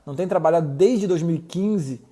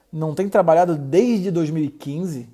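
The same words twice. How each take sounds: First: "dois mil e quinze" leaned on, "trabalhado" left light; stress on dois mil e quinze. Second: "dois mil e quinze" stressed as a mild question, not "trabalhado"; echo question. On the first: Doctor echoing the patient, stressing "dois mil e quinze". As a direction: push the weight onto "dois mil e quinze". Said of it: "a ênfase em dois mil e quinze". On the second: Doctor echoing the patient's words as a question. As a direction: ask back with the weight on "dois mil e quinze". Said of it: "E não no trabalhado". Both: Shown as a demonstration.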